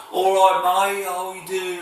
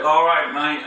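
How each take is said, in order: First: High-pitched mock Brummie; Birmingham accent. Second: Loud, higher-pitched northern English twang. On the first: Imitating the Brummies for viewers, high Birmingham accent. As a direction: put on a hammed-up Brummie accent, pitched well up. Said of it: "the Birmingham accent". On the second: Demonstrating his northern English twang to YouTube viewers, broad accent. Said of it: "I go into northern twang". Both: Shown as a demonstration.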